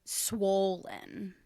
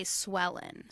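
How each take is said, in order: First: "Swollen" drawn out as SWOHL-en; standard long O. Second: "swellen" as SWELL-en, rhyming with Ellen; short E vowel. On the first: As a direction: give "Swollen" a full, long O. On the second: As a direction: turn the O into an E, "swellen". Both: Shown as a demonstration. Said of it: "And I say swellen".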